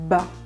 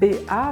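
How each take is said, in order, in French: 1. Les sons se collent en une seule syllabe. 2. On dit les noms des deux lettres l'un après l'autre. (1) "mais fait" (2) "ne fait pas"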